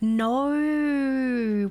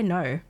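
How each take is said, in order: First: The vowel is exaggerated and drawn out. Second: The vowel is short and plain. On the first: This is the mocking imitation of the accent. The speaker calls it wrong. "I don't say no. We don't say that" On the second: This is how the speaker really says it. The speaker calls it right. "I just say no"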